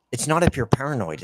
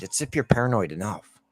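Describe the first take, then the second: First: Said in the usual way. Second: "enough" tacked on and leaned into; stress on enough. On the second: Shown as a demonstration. Ranting gamer correcting a saying, stressing enough. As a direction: land on "enough", the tune rising.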